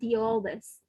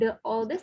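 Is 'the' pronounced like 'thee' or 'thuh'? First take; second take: thee; thuh. First: The word 'the' sounds like 'thee'. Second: The word 'the' sounds like 'thuh'. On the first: The speaker calls it right. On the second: The speaker calls it wrong.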